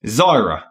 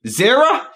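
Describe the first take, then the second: First: Zyra said ZYE-ruh, falling flat. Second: Zira said ZIH-ruh, rising and high. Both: Shown as a demonstration. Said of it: "nod in agreement".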